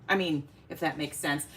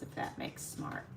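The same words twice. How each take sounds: First: Said in the usual way. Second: Mumbled slip, smart instead of sense, near voiceless; slip of the tongue. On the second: Real, not acted. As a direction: let "smart" slip out under the breath where "sense" belongs.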